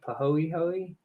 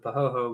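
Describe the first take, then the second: First: The e sounds in the word are pronounced. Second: The e sounds in the word are silent. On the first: "Someone was saying you pronounce the e's" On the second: "I had always called them the pahoho before and got got uh, corrected"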